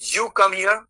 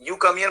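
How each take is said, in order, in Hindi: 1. 'you' के बाद एक छोटा विराम है। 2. 'you' के बाद बिना विराम के चलता है। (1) "आप यहाँ आओ, ठीक है, ऐसे।" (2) "मतलब आप यहाँ आते हो"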